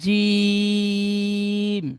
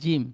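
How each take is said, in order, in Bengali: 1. স্বরধ্বনিটি তিন আলিফ টান দিয়ে পড়া হয়। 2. স্বরধ্বনিটি হ্রস্ব, টেনে পড়া হয় না। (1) "ওই একই রকম টান দিয়ে পড়বো।" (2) "ঠিক এমনটাই বলবো না"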